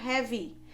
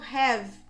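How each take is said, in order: First: It ends with an extra vowel after the v. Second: It ends on the v with no vowel after. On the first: The speaker calls it wrong. "e não have" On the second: The speaker calls it right. "eu tô falando have"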